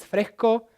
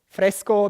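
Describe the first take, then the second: First: The s is aspirated and nearly disappears. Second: The s is fully pronounced.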